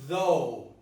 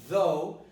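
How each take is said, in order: No difference in how they are said.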